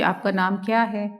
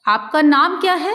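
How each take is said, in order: First: It is said with a flat statement tune. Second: It is said with a questioning tune. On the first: It does not come across as a question. The speaker calls it wrong. "अगर आप ऐसे पूछे ... प्रश्नवाचक चिन्ह प्रतीत नहीं हो रहा" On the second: It is asked as a real question. The speaker calls it right. "जैसे आपने पूछा"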